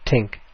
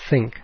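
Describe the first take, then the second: First: The word begins with a 't' sound. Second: The word begins with a 'th' sound.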